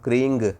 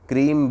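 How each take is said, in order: First: The word ends with an 'ng' sound. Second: The word ends with an 'm' sound. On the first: "मैं यहाँ पर क्रींग बोल रहा हूँ" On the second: "आप यहाँ पर क्रीम भी बोल सकते हो"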